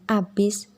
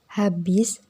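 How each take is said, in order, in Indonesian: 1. Kata ini langsung diawali dengan bunyi vokal. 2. Kata ini diawali dengan bunyi h yang terdengar. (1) "merupakan kata yang salah" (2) "adalah kata yang benar"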